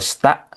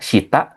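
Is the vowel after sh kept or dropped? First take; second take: dropped; kept. First: The vowel after sh is dropped entirely. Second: The vowel after sh is fully pronounced. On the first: "kalau udah cepat nanti bacanya jadi sta" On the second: "kalau bacanya masih masih baru jadi shita"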